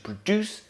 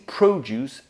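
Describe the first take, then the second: First: The stress is on the second syllable. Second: The stress is on the first syllable. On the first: It is used as a verb. "verbs on their second" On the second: It is used as a noun. "Nouns are stressed on their first syllable"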